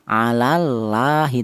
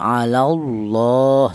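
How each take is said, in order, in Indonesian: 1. Huruf L dalam Allah dibaca tipis dan ringan. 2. Huruf L dalam Allah dibaca tebal dan berat. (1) "dibaca tipis atau tarkik" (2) "dibaca tafkhim atau dibaca tebal"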